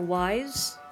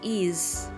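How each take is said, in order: First: It sounds like the word wise. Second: It sounds like the word ease. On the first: Some people read the name this way. The speaker calls it wrong. "or wise" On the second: This matches how the name is written in kana. The speaker calls it right. "I can confirm it is ease"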